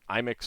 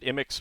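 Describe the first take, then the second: First: It sounds like an Apple product name. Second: It does not sound like an Apple product. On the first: This is the official pronunciation. "is the official pronunciation" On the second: This is the speaker's own preferred pronunciation. "which I pronounce it I M I X"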